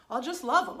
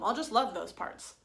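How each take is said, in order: First: Loud, forced eagerness; the mind grabbing at a quick fix, loud and keen; eager mind voice. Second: Eager mind, repeated. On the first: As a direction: insist you'll just love them, loudly. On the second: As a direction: still loud, a little less pushed. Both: Retold or imitated. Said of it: "That's the mind saying".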